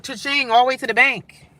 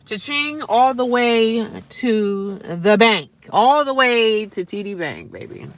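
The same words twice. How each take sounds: First: Said in the usual way. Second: Slow, stretched-out words with weight; milk every word of the boast; drawn-out boast. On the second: Real, not acted. Same line repeated, drawn out.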